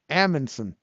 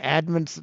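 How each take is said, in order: First: The name begins with an 'Am' sound. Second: The name begins with an 'Ed' sound. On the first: The speaker calls it right. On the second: The speaker calls it wrong.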